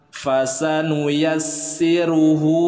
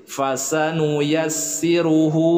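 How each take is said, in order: The two takes are said the same way.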